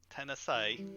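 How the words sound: It is said in a strong Southern accent. This is how she talks around her family. "she changes her dialect whenever she runs into her family"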